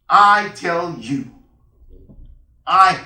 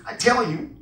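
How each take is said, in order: First: "I tell you" slow and loud, each word weighted; solemn emphasis. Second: Said in the usual way. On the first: Shown as a demonstration. Preacher underlining the Lord's promise to the congregation, emphatic "I tell you". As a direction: stretch out "I tell you" with force. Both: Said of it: "another emphasis".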